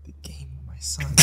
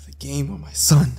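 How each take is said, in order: First: Whispered dilemma. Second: Said in the usual way. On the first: Retold or imitated. Father agonizing over bet or son, whispered. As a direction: repeat it in a hushed whisper.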